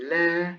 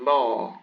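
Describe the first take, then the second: First: First la light, with a fronted "lae" vowel; non-emphatic la. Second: Second la dark, with a backed "law" vowel; emphatic la. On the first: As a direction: say la with a thin, clear L. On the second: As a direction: say la with a thick, heavy L. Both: Shown as a demonstration. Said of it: "you hear the difference between".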